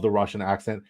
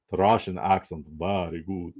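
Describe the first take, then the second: First: Said in the usual way. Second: Lower-pitched mock Russian accent. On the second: Shown as a demonstration. Showing off accents to stream viewers, Russian accent. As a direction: put on a Russian accent, dropping low at the end. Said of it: "or the Russian".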